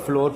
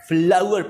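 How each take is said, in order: First: The vowel sounds like the 'or' in 'door'. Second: The vowel sounds like the 'ow' in 'cow'. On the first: The speaker calls it wrong. "इसको आमतौर पर फ्लोर पढ़ लिया जाता है, जो कि सरासर गलत है" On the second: The speaker calls it right. "फ्लावर पढ़ना है"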